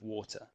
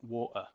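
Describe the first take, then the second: First: The middle T is clearly pronounced. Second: The middle T is dropped or swallowed. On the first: "That T adds a clarity" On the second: "you might hear people talk about water"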